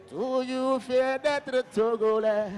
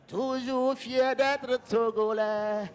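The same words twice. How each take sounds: The two takes are said the same way.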